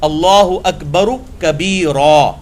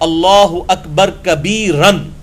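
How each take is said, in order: First: The last word ends with a long -a sound. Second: The last word ends with an -an sound. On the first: "जब हम इसे वक्फ करते हैं तो क्या पढ़ते हैं?" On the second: "जैसे है अल्लाहु अकबर कबीरन"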